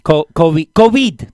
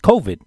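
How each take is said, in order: First: It is said with an added vowel sound. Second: It is said without an added vowel sound. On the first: The speaker calls it wrong. "That's how they say it in Argentina" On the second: The speaker calls it right. "Just saying, it's COVID"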